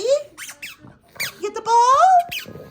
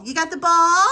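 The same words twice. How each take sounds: First: Very high, very slow drawn-out coo; pet talk. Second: High, loud cheerful question; pet talk. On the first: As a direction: stretch it out sweetly to the dog. Drawn out to the dog. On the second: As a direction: coo at the dog over the ball. Excited at the dog's ball. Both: Real, not acted.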